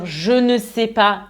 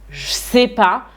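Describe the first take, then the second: First: Every word is said fully, including ne. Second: The ne is dropped from the phrase. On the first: "à la place de dire je ne sais pas" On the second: "je vais dire je sais pas"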